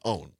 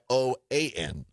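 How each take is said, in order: First: The name is said as one word, 'own'. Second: The name is spelled out letter by letter. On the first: "They pronounce it OWN" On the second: "which goes by O-A-N"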